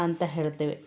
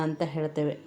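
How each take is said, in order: The two takes are said the same way.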